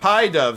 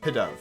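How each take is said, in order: First: The first syllable sounds like the word 'pie'. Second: The first syllable has a short 'pih' vowel. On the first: The speaker calls it wrong. "Pie dove sounds weird" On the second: The speaker calls it right. "I think it's pi. Like, P I H"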